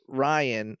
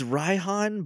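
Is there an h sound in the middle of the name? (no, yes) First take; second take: no; yes. First: The name is said without a middle h sound. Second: The name is said with a middle h sound. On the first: The speaker calls it wrong. "I just pronounce it as Ryan in my head" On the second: The speaker calls it right. "It's Raihan"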